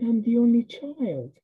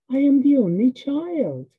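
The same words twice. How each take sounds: First: Said in the usual way. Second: Put-on "I am the only child" higher and more forceful; emphatic restatement of "I am the only child"; emphatic repetition. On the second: A narrator's reading. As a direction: stress out "I am" in full, pitched up. Repeats the realisation with emphasis.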